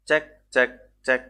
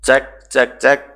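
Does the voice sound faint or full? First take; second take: faint; full. First: The voice sounds very quiet and unclear. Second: The voice sounds louder and clearer.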